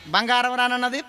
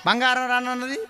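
No difference in how they are said.

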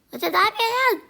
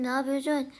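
First: Much higher, much louder alarmed shout. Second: Said in the usual way. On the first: Acted. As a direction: shout at her for climbing up. Sibling climbing on her head. (telaşla bağırarak)

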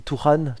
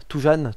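First: Touran said with an r in the middle; trying a pronunciation. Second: Toujan with a zh sound in the middle; alternative pronunciation. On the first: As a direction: sound out Touran, softly, with a French r. (prononcer Touran avec un r au milieu) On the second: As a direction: try Toujan softly, j as in French je. (prononcer Toujan avec un j au milieu) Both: Shown as a demonstration. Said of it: "je sais pas comment on dit".

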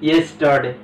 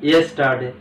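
The two takes are said the same way.

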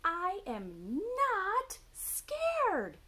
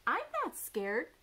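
First: High, slow, loud owlet shout; indignant little owl yelling; shouting Baby Owl. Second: Higher, mildly indignant little owl; lightly voiced baby owl; Baby Owl protesting. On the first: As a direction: stretch and shout every word, high. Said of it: "shouted Baby Owl". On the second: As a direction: protest like a small owlet. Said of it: "said Baby Owl". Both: A narrator's reading.

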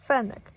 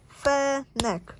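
First: Said in the usual way. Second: "Fenek" as two separate beats, Fe - nek; split into syllables. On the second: Shown as a demonstration. Reader showing children the syllables, "Fenek" split in two. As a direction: break "Fenek" after Fe, holding each syllable. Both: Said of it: "Podziel na sylaby słowa".

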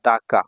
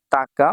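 First: দাকা with an initial d, da-ka; slow, even দাকা starting on D; alternative reading. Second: তাকা with an initial t, ta-ka; slow, even তাকা starting on T; first reading. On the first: Teacher offers the second of two readings, দাকা with a d. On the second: Teacher offers the first of two readings, তাকা with a t. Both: Shown as a demonstration. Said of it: "তাকা বা দাকা".

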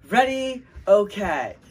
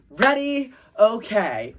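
First: Cheerleader call. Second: High, loud cheer call; cheerleader call. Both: Pretend. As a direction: shout it like a cheerleader. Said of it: "Make up a cheer".

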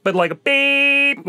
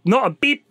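First: A beep longo e enfático; slow drawn-out beep. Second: Said in the usual way. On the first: Shown as a demonstration. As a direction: stretch out a beep. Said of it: "the good old".

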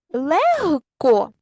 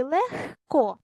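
First: "Легко" stretched out, louder, h clearly voiced. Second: "легко" stretched out, voiceless kh before k. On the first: Teacher offers pupils the first spelling choice, voiced h. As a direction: say "Легко" very slowly with a voiced г before k. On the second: Teacher offers pupils the wrong spelling choice, voiceless kh. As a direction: say "легко" very slowly with х in place of г. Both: Shown as a demonstration. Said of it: "вставивши правильні букви".

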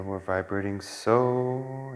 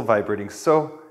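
First: Slow, drawn-out cue with the word so held long; slow meditation cue. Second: Said in the usual way. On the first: Shown as a demonstration. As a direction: guide the breath, stretching out so. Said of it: "As we inhale". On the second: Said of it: "it's gonna be inhale with the whistle".

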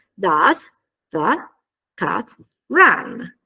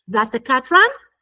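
First: DOES, THE, CAT, RUN each separated by pauses; word-by-word. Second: DOES THE squeezed short, CAT RUN full, rising; connected articulation. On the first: Teacher assembling the question's structure, word by word. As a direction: build the question slowly, piece by piece. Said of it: "aggiungiamo la frase di domanda". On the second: Teacher showing articulation after the grammar work, connected speech. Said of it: "ci faremo anche un lavoro articolatorio". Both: Shown as a demonstration.

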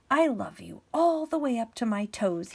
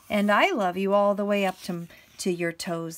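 First: Lightly voiced little hare, louder. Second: Big hare. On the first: Little hare upside down to big hare, light eager voice. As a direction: lift it a little for the small hare. Little hare's line in story. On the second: Acted. Big hare answering little hare's boast, lightly voiced big hare. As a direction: answer firmly as the bigger hare.

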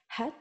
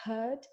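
First: "had" said with a short open a; short vowel had. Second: "heard" said with a long ur vowel, as in bird. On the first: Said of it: "Este o vocală scurtă". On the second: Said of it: "și dacă spui had". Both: Shown as a demonstration.

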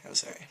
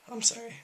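First: Said in the usual way. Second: Much higher, squeaky I'm sorry; squeaky apology. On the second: Pretend. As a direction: pop it up into a squeak. Repeated apology, squeaky joke take.

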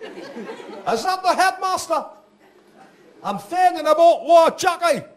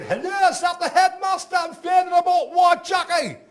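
First: High, slow Geordie voice with laughs; Geordie caller, first call. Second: Shouting Geordie dad. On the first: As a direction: ask in broad Geordie, pitched up. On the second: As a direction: bellow down the phone in broad Geordie. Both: Retold or imitated. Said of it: "he said".

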